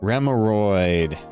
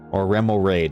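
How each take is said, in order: First: The ending sounds like the word hemorrhoid. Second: The ending does not sound like hemorrhoid. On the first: The speaker calls it wrong. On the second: The speaker calls it right.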